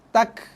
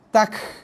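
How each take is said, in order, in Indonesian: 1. Akhirannya mengeluarkan hembusan napas yang sangat sedikit. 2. Akhirannya mengeluarkan banyak hembusan napas. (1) "keluarkan sikit sangat hembusan nafas" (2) "itu hembusan nafas terlalu banyak"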